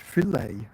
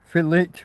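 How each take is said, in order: First: The final T is silent, French-style ending. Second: The final T sound is clearly pronounced. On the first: The speaker calls it wrong. "it becomes fillet" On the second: The speaker calls it right. "Fillet with a T"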